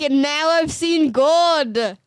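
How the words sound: It is read in a put-on Australian accent.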